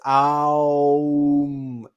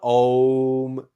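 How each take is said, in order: First: The vowel glides through A, O, U before M. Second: A single O vowel is followed by M. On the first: The speaker calls it right. "It's Aum. A O U M" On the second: The speaker calls it wrong. "It's not Om"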